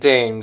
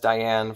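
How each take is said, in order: First: The name is said with one syllable. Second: The name is said with two syllables. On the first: The speaker calls it right. "Her name is Dane" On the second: The speaker calls it wrong. "I kept pronouncing it as Diane for some reason"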